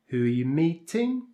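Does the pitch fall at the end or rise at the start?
falls at end. The pitch falls on the final word, meeting. The speaker is asking for new information. "we use a falling intonation on the final content word"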